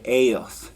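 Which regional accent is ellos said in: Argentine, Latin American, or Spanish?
Latin American. The ll is said like an English y. "the rest of the world ... they say ellos"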